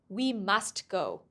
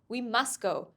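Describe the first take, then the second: First: The final t of must is clearly pronounced. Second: The final t of must is dropped. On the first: The speaker calls it wrong. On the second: The speaker calls it right. "the last sound of a word disappears"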